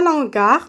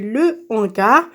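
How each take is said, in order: First: The article loses its vowel and joins hangar. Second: The article keeps its vowel before hangar. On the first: The speaker calls it wrong. "On ne dit pas l'hangar" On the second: The speaker calls it right. "on dit le hangar"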